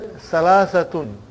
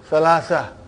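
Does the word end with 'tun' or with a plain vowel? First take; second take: tun; vowel. First: The word ends with a final 'tun' syllable. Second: The word ends on a plain open vowel. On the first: "And then salasatun" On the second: "you will always hear the word salasa"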